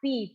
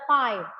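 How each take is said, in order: First: It is said with Indonesian pronunciation. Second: It is said with English pronunciation. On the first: This is how it is read in Indonesian. "di matematika pakai bahasa Indonesia dibilang P ya" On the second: This is how it is read in English math. "Tapi di math bilang aja pi ya"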